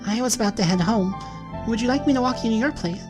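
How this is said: It is read in another character's put-on voice. The speaker calls it wrong.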